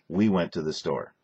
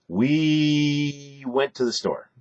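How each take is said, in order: First: The words are said at normal length. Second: The words are drawn out and elongated.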